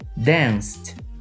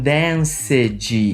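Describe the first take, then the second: First: The ending is a short T sound. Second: The ending is an added ed syllable. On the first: The speaker calls it right. "no passado ele terá som de T" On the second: The speaker calls it wrong. "Eu tenho alunos que falam danced, Não, não é assim a pronúncia"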